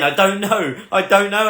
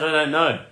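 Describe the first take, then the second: First: Repeated with rising pitch and more push on don't; repeating helplessly. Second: Said in the usual way. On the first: Retold or imitated. Mock helpless reply to AJ pressing for a date. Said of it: "I just kept repeating over and over again". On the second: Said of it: "I said".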